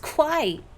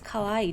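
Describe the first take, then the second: First: The word is squeezed into kwai, like river Kwai. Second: The word is said in full as kawaii. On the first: The speaker calls it wrong. "like like bridge over the river Kwai" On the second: The speaker calls it right. "I'm pretty sure it's kawaii"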